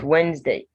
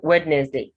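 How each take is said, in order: First: The first d is silent. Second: The first d is sounded. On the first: The speaker calls it right. "it's Wednesday. The first D is silent" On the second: The speaker calls it wrong. "So it's not Wednesday"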